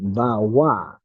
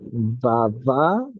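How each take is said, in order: First: The middle consonant is a W sound. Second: The middle consonant is a V sound. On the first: This is the Tibetan pronunciation. "pronounced Bawa in Tibetan" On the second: This is the Sanskrit pronunciation. "Bava is pronounced"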